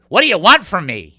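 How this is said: It sounds negative and exasperated. The asker is frustrated and complaining. "I wasn't saying in the negative way. Some people will say"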